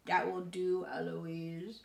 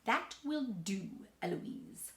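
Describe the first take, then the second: First: Parroting in a put-on voice; mock the tutor by echoing him; child mimicking tutor. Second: Slow, measured scolding; tutor's reprimand. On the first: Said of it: "And then I say". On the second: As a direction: rebuke her slowly, dropping on the name. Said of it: "And then he says". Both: A narrator's reading.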